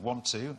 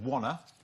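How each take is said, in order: First: The two words are said fully and separately. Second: The words are blended into one reduced form. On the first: "Instead of want to" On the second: "He said wanna"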